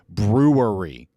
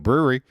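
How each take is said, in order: First: The word is said slowly and carefully. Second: The word is said quickly in a Midwestern accent. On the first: "I really have to slow down when I say brewery" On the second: "I'm just slipping back into it"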